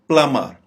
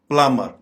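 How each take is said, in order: Both takes have the same delivery.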